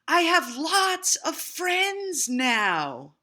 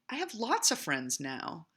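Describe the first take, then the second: First: It is said very loudly. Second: It is said at a normal, quieter volume.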